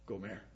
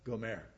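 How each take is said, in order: First: The name is said with a Hebrew pronunciation. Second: The same.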